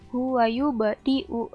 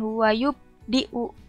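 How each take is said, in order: First: The b is released with a bouncing echo. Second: The b is held without any bounce. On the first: The speaker calls it right. "harus ada pantulannya" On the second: The speaker calls it wrong. "bukan huwayub diu. Itu kan gak ada pantulannya"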